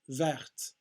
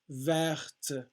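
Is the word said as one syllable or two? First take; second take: one; two. First: It is run together as one syllable. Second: It is split into two separate syllables. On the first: "It sounds like one syllable" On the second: "if you say it super clearly"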